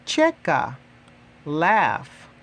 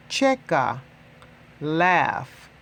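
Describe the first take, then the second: No difference in how they are said.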